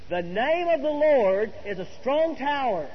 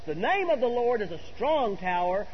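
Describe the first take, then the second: First: It is said with strong, convinced energy. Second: It is said in a plain, flat way.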